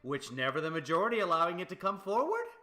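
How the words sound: The voice rises at the end. It sounds like a question. "If I go up at the end"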